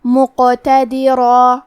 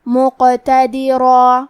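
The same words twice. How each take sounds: First: مقتدرا very slow with a bounced, echoing ق; qalqalah demo. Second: مقتدرا very slow, final را and alif both heavy and full; heavy ending. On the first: Teacher demonstrating qalqalah to students, bouncing ق. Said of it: "ہلاتے ہوئے یہ کلمہ کو پڑھیں گے". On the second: Teacher showing tafkheem to students, heavy ending on مقتدرا. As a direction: end مقتدرا with a thick, heavy را and long alif. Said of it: "بھاری آواز میں پڑھنا ہے". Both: Shown as a demonstration.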